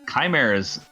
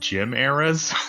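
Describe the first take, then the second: First: The word does not begin like 'Jim'. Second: The word begins like the name 'Jim'. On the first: This is the speaker's usual way of saying it. "that's how I say it" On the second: This is how others in the game say it. "as if it's just some guy named Jim"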